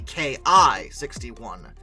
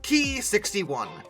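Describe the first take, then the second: First: The letters K and I are spoken separately. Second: The designation is spoken as one single word. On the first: "by letter" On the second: "pronounced as an actual word"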